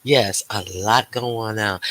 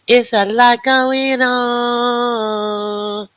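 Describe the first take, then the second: First: Said in the usual way. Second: High, very slow sung-out line; high drawn-out singsong. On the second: Shown as a demonstration. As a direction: stretch it out high like a tune.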